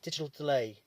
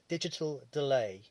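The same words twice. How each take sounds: First: The phrase is said at normal speed. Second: The phrase is said slowly and deliberately.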